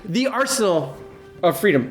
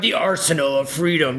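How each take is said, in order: First: It is said in a grand, regal put-on voice. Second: It is said in an odd, non-regal put-on voice. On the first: The speaker calls it right. "I should have given it a more regal uh, t- talk" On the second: The speaker calls it wrong. "I don't know why I did that voice"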